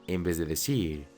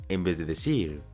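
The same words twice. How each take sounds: The two takes are said the same way.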